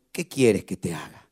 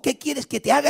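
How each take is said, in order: First: Voz de Jesús, grave. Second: Said in the usual way. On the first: Acted. Jesus asks Bartimeo softly. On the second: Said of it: "le preguntó".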